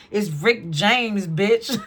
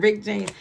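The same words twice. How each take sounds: First: Drawn-out, loud catchphrase, lightly impersonated; loud, slow comic catchphrase. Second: Said in the usual way. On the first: Acted. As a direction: stretch the name out and punch the last word. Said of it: "I just heard [name]".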